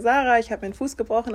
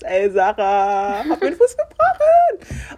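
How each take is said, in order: First: It is said in a calm, serious tone. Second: It is said in an excited, upbeat tone.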